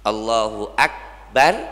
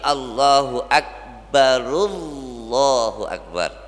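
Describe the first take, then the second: First: The r is stopped before the next phrase. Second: The r runs straight into the next phrase. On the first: "sunnahnya mematikan huruf ra" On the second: "jadi disambung"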